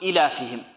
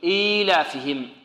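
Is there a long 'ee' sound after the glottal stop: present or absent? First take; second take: absent; present. First: The long vowel after the glottal stop is dropped. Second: The vowel after the glottal stop is held long. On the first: The speaker calls it wrong. "بعض المبتدئين يسقطها يقول إيلافهم، وهذا خطأ" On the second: The speaker calls it right. "تمد بمقدار حركتين"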